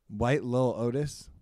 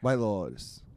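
First: The phrase is said slowly, each word separate. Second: The phrase is said quickly, words run together.

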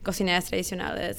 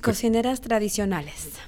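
First: It is said at normal conversational speed. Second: It is said slowly and carefully.

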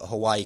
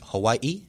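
First: The name is said the usual English way. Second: The name is said the native Hawaiian way.

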